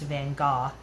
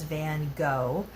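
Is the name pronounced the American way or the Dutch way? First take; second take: Dutch; American. First: The name has the Dutch pronunciation. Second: The name has the American pronunciation. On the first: This is how people in his home country say it. "it's pronounced Van Gogh. Uh, he's from the Netherlands, so that's how they pronounce it over there" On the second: This is how Americans know the name. "Americans know him as Van Gogh"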